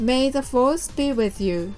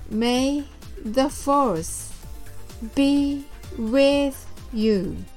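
First: The phrase is said quickly and smoothly. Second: The phrase is said slowly and deliberately. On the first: "早く言ってみましょう" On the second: "ゆっくりと練習してみましょう"

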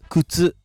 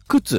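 First: It uses the standard Japanese pitch pattern. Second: It uses the Shizuoka regional pitch pattern. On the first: "標準語は靴です" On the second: "静岡人は靴って言うんですね"

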